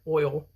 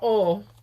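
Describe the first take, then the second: First: Oil is said with a standard two-part vowel. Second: Oil is said with a Southern flattened vowel. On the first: It is said to sound correct and polite. "I'm just saying it to be correct, polite" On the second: It is how locals in North Carolina say it. "Down in North Carolina, it's called oil"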